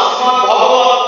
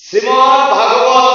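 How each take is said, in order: First: ভগবত with no aa after the bh; corrected short vowel. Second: ভাগবত with long aa after the bh; wrong long vowel. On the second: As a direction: slowly say ভাগবত, opening the first vowel to aa. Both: Shown as a demonstration. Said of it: "দয় ভয়ের সামনে আকারটা নেই".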